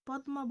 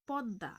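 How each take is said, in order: First: The m sound is clearly pronounced after d. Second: The m is silent and the d is doubled. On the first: The speaker calls it wrong. "আমরা কিন্তু পদ্মা বলি না" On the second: The speaker calls it right. "এটি মফলাটা এখানে উচ্চারণ হবে না"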